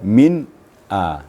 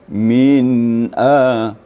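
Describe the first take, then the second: First: The sound is cut off between the words. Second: The sound flows smoothly without a break. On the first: The speaker calls it wrong. "tidak boleh min a" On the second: The speaker calls it right. "Suaranya mengalir dan tidak terputus. Seperti min a"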